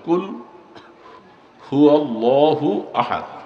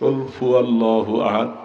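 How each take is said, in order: First: The word after qul starts with an h sound. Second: The word after qul starts with an f sound. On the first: The speaker calls it right. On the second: The speaker calls it wrong.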